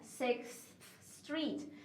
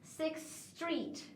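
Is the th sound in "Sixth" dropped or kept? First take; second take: kept; dropped. First: Said slowly, with both the th and s sounds. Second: Said fast, th dropped into one long s. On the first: "Se for mais devagar, você vai pronunciar os dois sons" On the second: "se for na fala rápida, você vai tirar esse som de T H e fazer um S longo"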